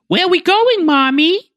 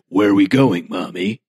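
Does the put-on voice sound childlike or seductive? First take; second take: childlike; seductive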